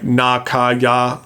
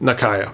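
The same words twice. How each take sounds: First: Each vowel is an open Japanese-style 'ah' sound. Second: The vowels are said in an English-style way. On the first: The speaker calls it right. "the correct pronunciation ... all the A sounds are correct. So the name is more like Nakaya" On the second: The speaker calls it wrong. "my Western mouth has a hard time saying that. ... I am sticking with Nakaya"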